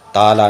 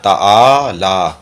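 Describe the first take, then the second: First: The vowel is short, without a drawn-out ain sound. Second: The vowel with the ain sound is drawn out long. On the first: The speaker calls it wrong. "ताला नहीं" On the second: The speaker calls it right. "आ ऐन को खींचना"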